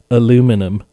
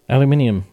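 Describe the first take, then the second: First: It is said the American way, four syllables. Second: It is said the British way, five syllables.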